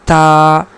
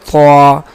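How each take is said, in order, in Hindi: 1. इस अक्षर को पतली, हल्की आवाज़ से बोला जाता है। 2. इस अक्षर को भारी, भरी हुई आवाज़ से बोला जाता है। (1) "अगर इसको हम बारीक पढ़े" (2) "इसको हम पुर पढ़ेंगे"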